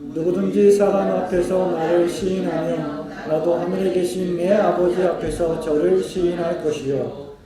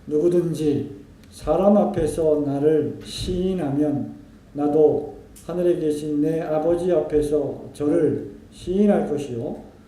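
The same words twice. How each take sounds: First: It is read at a normal pace. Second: It is read slowly and deliberately.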